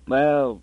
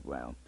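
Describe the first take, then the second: First: Said in the usual way. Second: Well dropped low and very soft; grumbled under breath. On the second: A narrator's reading. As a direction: mutter it under your breath. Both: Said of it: "He grumbled".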